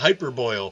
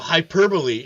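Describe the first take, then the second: First: The word ends in one syllable rhyming with 'boil'. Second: The word ends in four syllables with 'bo-lee'. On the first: "I would call it hyperboil" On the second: "I would see the word uh, hyperbole"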